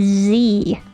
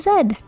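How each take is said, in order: First: The letter is named zee, American style. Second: The letter is named zed, non-American style.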